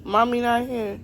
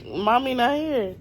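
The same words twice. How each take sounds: First: Loud teasing playful voice; pretend mommy voice. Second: Loud slow teasing; playful denial to the child; pretend mommy voice. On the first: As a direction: keep teasing the child. Teasing child, pretending absent.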